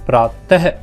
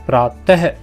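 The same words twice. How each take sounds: First: The word ends with a breathy h sound. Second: The same.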